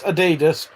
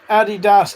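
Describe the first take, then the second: First: Adidas as uh-DEE-duss; Adidas with a long DEE; Adidas pronunciation variant. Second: Adidas as AD-ee-dass; Adidas with a clear final DASS; Adidas pronunciation variant. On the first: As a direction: stress the middle syllable of Adidas. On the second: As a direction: stress the first syllable of Adidas. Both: Shown as a demonstration. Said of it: "how you pronounce those".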